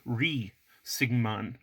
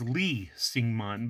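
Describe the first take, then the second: First: The name begins with an R sound. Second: The name begins with an L sound.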